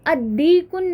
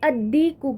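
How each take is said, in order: First: The word ends with an added n sound. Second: The word ends on a vowel without n. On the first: The speaker calls it wrong. "नहीं कहना है" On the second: The speaker calls it right. "कहना है"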